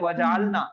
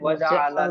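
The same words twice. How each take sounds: First: The L is followed directly by N. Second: A short a vowel follows the L. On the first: It means we made. The speaker calls it wrong. "बहुत सारे लोग पढ़ते हैं वजअलना" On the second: It means he made us. The speaker calls it right. "लाम पे जबर के साथ पढ़ना है"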